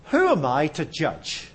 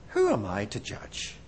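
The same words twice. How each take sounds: First: Said in the usual way. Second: Softer, lower repeat with a rise; quiet echo. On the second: Shown as a demonstration. Preacher repeating his own question in a hush. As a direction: murmur it back to yourself. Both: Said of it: "repeated question".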